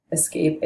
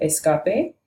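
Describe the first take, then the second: First: Escape in English, is-KAPE; plain English escape; English pronunciation. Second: Escape in Spanish, es-KAH-peh; Spanish escape, every vowel pure; Spanish pronunciation. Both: Shown as a demonstration. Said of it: "cognates in Spanish and English".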